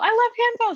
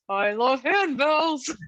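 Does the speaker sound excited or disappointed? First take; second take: excited; disappointed. First: It sounds excited and pleased. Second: It sounds flat and disappointed.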